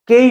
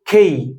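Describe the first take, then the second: First: The k sound has no puff of air. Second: The k sound has a puff of air. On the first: The speaker calls it wrong. "केई नहीं है" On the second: The speaker calls it right. "क के पीछे थोड़ा ह की आवाज जुड़ी होती है"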